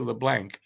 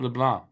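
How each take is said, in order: First: The name is said in an American way. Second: The name is said in a non-American way. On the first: "a lot of Americans would say LeBlanc" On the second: "He pronounced it right though"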